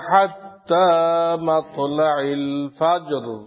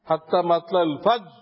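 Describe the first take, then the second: First: The final r sound is clearly pronounced. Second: The final r sound is dropped. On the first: The speaker calls it right. "রাষ্ট্রছে কিনা?" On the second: The speaker calls it wrong. "ফাজ কয়ে শেষ, রার কোনো খবর নেই"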